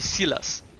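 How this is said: It is said with a put-on Mediterranean accent. The name is made to sound exotic and cool. "trying to sound like Silas comes from a Mediterranean island"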